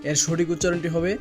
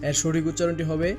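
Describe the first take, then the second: No difference in how they are said.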